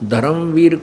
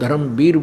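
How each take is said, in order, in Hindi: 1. अंतिम अक्षर की शुरुआत 'v' ध्वनि से होती है। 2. अंतिम अक्षर की शुरुआत 'b' ध्वनि से होती है। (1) "धर्मवीर को" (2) "हम धर्मवीर बोलते हैं"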